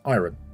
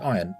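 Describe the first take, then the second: First: The R sound is clearly pronounced. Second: The R sound is left silent. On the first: This is the technically correct form. "technically it's iron" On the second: This is how most people say it. "Everyone calls it iron"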